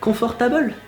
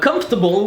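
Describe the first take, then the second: First: All syllables carry roughly equal weight. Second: One syllable is stressed more than the others.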